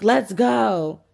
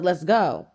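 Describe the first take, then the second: First: Louder, insistent imitation of a fed-up date; retold exasperated command; impatient call. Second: Said in the usual way. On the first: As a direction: act out hurrying someone along, loudly. Ignored date repeats his call.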